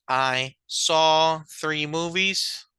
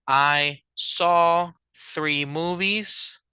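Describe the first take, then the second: No difference in how they are said.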